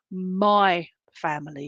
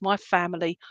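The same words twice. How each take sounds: First: "my" drawn out long and slow before "family"; stress on MY. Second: Said in the usual way. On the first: Retold or imitated. Medium relaying dad's words to his daughter, stress on "my". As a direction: lean heavily on the word "my". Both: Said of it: "can't emphasize the word my".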